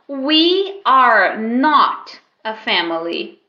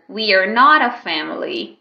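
First: The words are said separately and carefully. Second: The words run together, not a linked.

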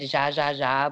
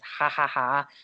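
First: The name is said with an Anglicized pronunciation. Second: The name is said with a Spanish pronunciation. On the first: This is how other people say the name. The speaker calls it wrong. "they pronounce it" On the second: The speaker calls it right.

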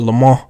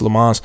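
First: It is said with a French accent. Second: It is said with an American accent.

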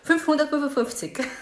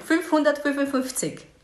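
First: The number is said much faster. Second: The number is said at a slower pace.

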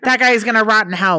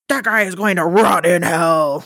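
First: It is said casually, without grandeur. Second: It is said with righteous, preacher-like solemnity.

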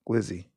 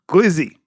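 First: It is said flatly, without enthusiasm. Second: It is said with lively enthusiasm.

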